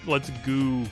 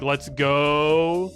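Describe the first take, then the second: First: The last word ends in an 'oo' vowel. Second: The last word ends in a normal 'oh' vowel. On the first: It jokingly reads out the typed extra letters. "I always like to pronounce it like let's let's goo" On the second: It is the usual cheer. "they mean like let's go"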